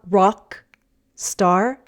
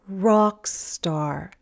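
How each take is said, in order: First: The two words are separated by a break. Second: The two words run together on one breath. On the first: The speaker calls it wrong. "not rock star" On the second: The speaker calls it right. "but rock star. Just breathe out"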